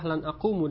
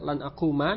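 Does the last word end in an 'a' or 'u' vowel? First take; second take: u; a. First: The last word ends with a 'u' vowel. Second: The last word ends with an 'a' vowel. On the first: The speaker calls it wrong. "dengan dhammah" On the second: The speaker calls it right. "dengan fathah"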